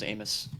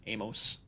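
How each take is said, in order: First: Amos with a weak "muss" ending; reduced second vowel. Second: Amos with a long O, "mohss"; full second vowel. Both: Shown as a demonstration. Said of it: "however you wanna say it".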